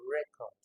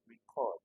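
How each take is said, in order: First: The stress is on the first syllable. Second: The stress is on the second syllable. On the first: It is used as a noun. "if you are calling this as a noun" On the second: It is used as a verb. "which puts the stress on the second syllable? It is a verb"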